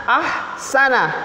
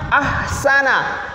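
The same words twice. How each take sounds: No difference in how they are said.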